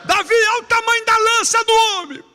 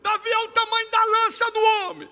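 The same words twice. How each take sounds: First: High, much louder jeering shout; louder shouted taunt. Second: Shouted taunt. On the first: Soldiers jeering at Davi, even louder shout. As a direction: belt it out harder, mocking. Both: Retold or imitated.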